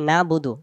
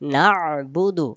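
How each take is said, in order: First: No throaty sound; 'na' runs straight into 'budu'. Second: A throaty 'ayn' sound comes before 'budu'. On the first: The speaker calls it wrong. "আইন অক্ষরটা বাদ যাবে" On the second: The speaker calls it right. "আইন অক্ষর সহ আদায় করতে হলে"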